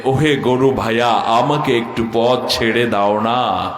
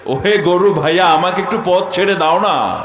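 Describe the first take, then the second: First: Polite refined woman. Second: "ওহে গরু ভাইয়া" said with a lifted, polite rise; savoring the polished wording; refined diction stressed. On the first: Retold or imitated. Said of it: "শুদ্ধ ভাষার ছোঁয়া লেগেছে". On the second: Shown as a demonstration. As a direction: put the weight on the refined word choice in "ওহে" and "একটু". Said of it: "ভাষার চয়নটা কোথায় লাগিয়েছে?".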